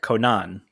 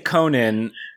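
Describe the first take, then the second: First: The name is said in a Japanese-style way. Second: The name is said in an English-style way. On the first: This is how it is said in Japanese. "when they say it in Japanese, it's more like Conan" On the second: This is how the hosts usually say it. "we usually say Conan"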